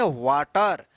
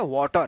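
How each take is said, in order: First: वाटर said "waa-tar", open aa; wrong "aa" vowel. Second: वाटर said "waw-tar", rounded vowel; correct "aw" vowel. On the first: Teacher showing the mistake we all make, with aa. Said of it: "हम लोग गलत उच्चारण करते हैं". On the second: Teacher giving learners the correct pronunciation, with aw. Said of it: "उसका सही उच्चारण है". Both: Shown as a demonstration.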